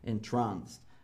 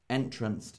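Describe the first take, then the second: First: The stress falls on the second syllable. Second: The stress falls on the first syllable. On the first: It means hypnotized or mesmerized. The speaker calls it right. "it is entranced by her beauty. This means to be hypnotized and mesmerized" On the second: It is not a real word. The speaker calls it wrong. "Entranced isn't a word"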